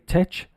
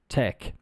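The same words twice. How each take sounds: First: The final sound is not a hard k. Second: The final sound is a hard k. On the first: The speaker calls it wrong. "I do hear my students say tech sometimes" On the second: The speaker calls it right. "The pronunciation is like a K"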